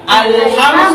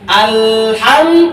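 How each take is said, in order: First: The L sound is short, like a tap. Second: The L sound is held too long, doubled. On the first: The speaker calls it right. "seperti diketuk aja" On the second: The speaker calls it wrong. "al ke- kepanjangan, sudah kelamaan"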